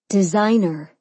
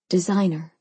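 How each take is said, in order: First: The word is said loudly. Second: The word is said quietly.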